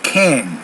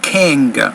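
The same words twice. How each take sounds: First: The N ends with no hard G. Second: A hard G sound follows the N. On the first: The speaker calls it right. "You're just saying king" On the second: The speaker calls it wrong. "you're not saying king"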